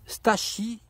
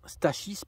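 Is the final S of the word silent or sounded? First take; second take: silent; sounded. First: The final S is silent. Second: The final S is clearly pronounced. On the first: The speaker calls it wrong. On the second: The speaker calls it right.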